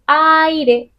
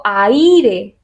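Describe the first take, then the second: First: Aire muy despacio con la fuerza en la A; correct stress on the A. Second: Aire dicho despacio, como demostración de lo incorrecto; wrong stress. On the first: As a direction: say aire slowly, leaning on the A. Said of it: "Digo aire". (aire lento, fuerza en la A) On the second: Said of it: "No digo aire". (aire pronunciado mal, lento) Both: Shown as a demonstration.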